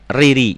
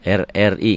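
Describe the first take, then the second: First: The letters run together as one word. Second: Each letter is named separately, one by one. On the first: The speaker calls it wrong. "enggak Riri enggak gitu" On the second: The speaker calls it right. "Bacanya dieja seperti B R I"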